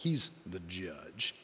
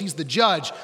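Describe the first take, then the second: First: It is said in a much deeper voice. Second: It is said in a normal voice.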